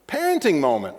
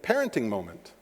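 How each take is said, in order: First: Said in the usual way. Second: Quiet inner thought. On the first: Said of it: "Parenting moment, right?". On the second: Retold or imitated. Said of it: "And I thought".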